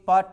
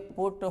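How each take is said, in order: First: The vowel sounds like the one in cut. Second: The vowel sounds like the one in foot. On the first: The speaker calls it wrong. "P U T पट नहीं" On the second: The speaker calls it right. "ये पुट होगा"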